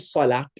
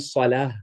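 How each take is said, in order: First: The word ends with a 't' sound. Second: The word ends with an 'h' sound. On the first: The speaker calls it wrong. "We don't say salat" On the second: The speaker calls it right. "We say salah with a ha at the end"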